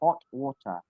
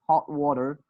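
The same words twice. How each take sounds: First: It is said in a British accent. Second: It is said in an American accent. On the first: "You will just say hot water" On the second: "If you say it in American accent, you will say what?"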